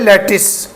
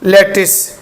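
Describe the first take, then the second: No difference in how they are said.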